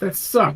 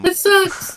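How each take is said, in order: First: The voice is lower and less nasal. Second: The voice is higher and more nasal.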